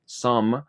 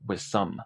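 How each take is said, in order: First: "some" with its own clear s; "some" said apart, not linked to "with"; full some. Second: "with some" run together as "withsome"; linked with some. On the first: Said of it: "en vez de pronunciarlo como". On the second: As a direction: glide "with some" into one word, dropping the th. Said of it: "simplemente puedes pronunciarlo como". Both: Shown as a demonstration.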